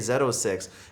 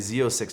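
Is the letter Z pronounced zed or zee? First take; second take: zed; zee. First: Z is pronounced zed, Canadian style. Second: Z is pronounced zee, American style.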